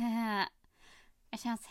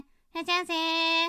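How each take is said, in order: First: A low, sexy voice pressing the final syllable. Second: A pouty, duck-lipped shop clerk voice.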